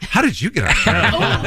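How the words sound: The word you carries strong, incredulous emphasis.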